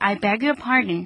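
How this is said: The pitch falls at the end like a statement. I ask for your forgiveness. "난 당신의 용서를 구합니다"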